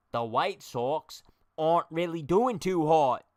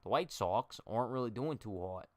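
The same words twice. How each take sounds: First: Slow, louder mock British accent, pitched up; a put-on British accent, drawn out and hammed-up. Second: Said in the usual way. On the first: Shown as a demonstration. Streamer testing a British accent on viewers, slow and hammed-up. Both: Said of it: "now it's British".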